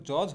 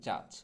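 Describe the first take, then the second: First: Said in the usual way. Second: জাজ with an open "a" vowel in place of "o"; corrected pronunciation. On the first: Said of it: "মোটেও জজ হবে না". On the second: Shown as a demonstration. Teacher correcting judge, জাজ with open "aa". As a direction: say জাজ as "jaaj". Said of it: "সঠিক উচ্চারণটা হবে হচ্ছে".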